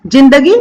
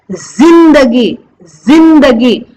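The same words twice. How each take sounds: First: Said in the usual way. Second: जिंदगी with a clear buzzing z; z sound. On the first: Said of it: "जो मैं जिंदगी बोल रही हूं वो बिल्कुल सही नहीं". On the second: Shown as a demonstration. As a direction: stretch जिंदगी slowly with z. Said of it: "ज को जो है ना जेड प्रोनाउंस करना है". (जिंदगी को ज़िंदगी बोलिए)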